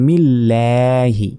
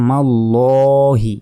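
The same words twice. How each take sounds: First: "মিল্লাহি" with a long, open LLAE; Arabic Lam as LAE. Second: "মাল্লহি" with a rounded, drawn-out LLO; Arabic Lam as LO. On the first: Qur'an teacher showing the reading after zer, long fronted "ল্যা". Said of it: "যেহেতু জের রয়েছে তাহলে বলতে হবে". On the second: Qur'an teacher showing the reading if zabar came before, rounded "ল". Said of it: "তখন উচ্চারণ হতো". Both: Shown as a demonstration.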